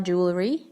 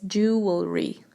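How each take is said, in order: First: Jewelry as JOO-luh-ree; jewelry with a rising, mistaken joo-luh-ree; wrong pronunciation. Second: Jewelry as JOO-ul-ree; jewelry with the L closing the middle syllable; correct pronunciation. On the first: Teacher rejecting the wrong jewelry, mispronounced as joo-luh-ree. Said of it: "It's not jewelry". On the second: Teacher correcting learners on jewelry, clear joo-ul-ree. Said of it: "it's jewelry". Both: Shown as a demonstration.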